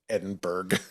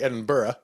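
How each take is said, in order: First: The ending is said with a hard G. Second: The ending is said without a hard G. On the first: This is how the town in Iowa says it. "It's the hardest G you've ever heard" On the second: This is the British way to say the name. "you'll notice I didn't say Edinburgh"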